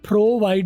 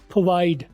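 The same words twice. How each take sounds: First: The r sound is pronounced fully. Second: The r sound is weakened and suppressed. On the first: The speaker calls it wrong. "प्रोवाइड नहीं" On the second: The speaker calls it right. "रे कहीं दब गया है।"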